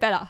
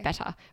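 First: The word is said loosely, with less enunciation. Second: The word is clearly and crisply enunciated. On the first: This is how people in Brisbane speak. "if I was in Brisbane, I would have said better" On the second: This is how wealthier Sydney people speak. "they enunciate things better. I just said better"

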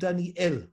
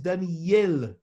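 First: The last syllable begins with no y sound. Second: The last syllable begins with a y sound. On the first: The speaker calls it wrong. "not under the Aleph" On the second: The speaker calls it right. "The Tzere is under the Yod"

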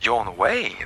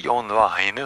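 First: The name is said with an English pronunciation. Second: The name is said with a non-English pronunciation. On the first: The speaker calls it right. "det korrekta engelskspråkiga uttalet är John Wayne" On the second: The speaker calls it wrong. "Inte John Weine"

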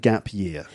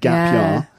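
First: The vowel in year is a full diphthong. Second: The vowel in year is flattened. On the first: The speaker does not sound posh. "You had a gap year" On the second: The speaker sounds posh. "you're not posh, so you didn't have a gap year"

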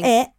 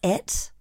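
First: The final t sound is dropped. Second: The final t sound is clearly pronounced. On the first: The speaker calls it wrong. "It's not it" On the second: The speaker calls it right. "It's it"

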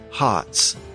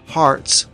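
First: The R after the vowel is dropped. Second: The R after the vowel is pronounced.

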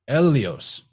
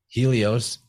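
First: The word begins directly with a vowel. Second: The word begins with an h sound. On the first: The speaker calls it right. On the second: The speaker calls it wrong.

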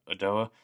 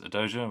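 First: The name has no J sound in the middle. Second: The name has a J sound in the middle. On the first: "someone was just calling her Adoa" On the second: "which is how I'm saying it"

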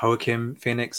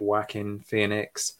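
First: The name is pronounced the Spanish way. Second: The name is pronounced a non-Spanish way. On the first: "I'm going with the Spanish pronunciation" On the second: "I know some people pronounce it"

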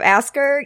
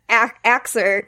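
First: The middle sounds are said as 'sk'. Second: The middle sounds are said as 'ks'. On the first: "instead of asker" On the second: "like I just said, axer"

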